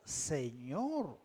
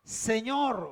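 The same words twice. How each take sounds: First: Imitación de sumisión, voz baja y suave; sumiso. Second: Imitación leve de un llamado temeroso; llama al Señor con un toque de temor, voz casi normal; temeroso, apenas insinuado. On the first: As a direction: dilo grave y quedo, rindiéndote a su autoridad. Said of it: "Se estaba sometiendo a su autoridad". (sumiso, en tono bajo y apagado) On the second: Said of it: "Estaba temblando, temeroso y le dijo". (temeroso, muy contenido) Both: Retold or imitated.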